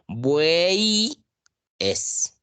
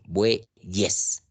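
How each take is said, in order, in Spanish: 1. La y es una vocal, que divide la palabra en dos. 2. La y es una consonante unida a la terminación. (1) "Yo no digo buey es" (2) "Yo pronuncio bueyes"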